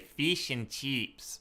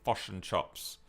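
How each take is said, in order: First: It is said in an Australian accent. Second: It is said in a New Zealand accent. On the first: "We say fish and chips" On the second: "They say fish and chops"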